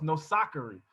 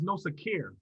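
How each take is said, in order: First: "Nosakari" said in full, every syllable given; proper pronunciation. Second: "Nosakir" said short and anglicized, the last syllable dropped; anglicized name. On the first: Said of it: "her name is pronounced Nosakari". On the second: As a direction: say "Nosakir" the easy English way, clipped at the end. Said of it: "what I would call anglicize my name". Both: Shown as a demonstration.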